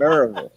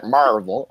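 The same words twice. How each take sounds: First: Maryville squeezed to "MAIR-uh-vul", ending swallowed; local pronunciation of Maryville. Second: Maryville with the first syllable as open "MAR", end swallowed to "vul"; mispronounced Maryville. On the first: Correcting the co-host, Maryville said locally as "MAIR-uh-vul". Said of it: "I said Maryville". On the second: Quoting the co-host's wrong version, Maryville said as "MAR-vul". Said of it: "I didn't say it". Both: Shown as a demonstration.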